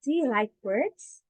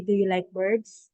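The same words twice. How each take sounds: First: "birds" lifted up as a question; proper question rise; rising question tune. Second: Flat tune, no rise on "birds"; monotone wrong take. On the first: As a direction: ask it with a rise at the end. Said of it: "you have to say here". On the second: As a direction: say "Do you like birds?" level, no question lift. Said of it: "No, it's a monotone". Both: Shown as a demonstration.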